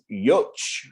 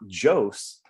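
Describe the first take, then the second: First: The surname is said with a Polish pronunciation. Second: The surname is said with an anglicized pronunciation. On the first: This is the original form of the name. The speaker calls it right. "if you pronounce it in Polish" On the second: This is how the family came to say the name. The speaker calls it wrong. "the correct pronunciation of my last name is actually not Jos"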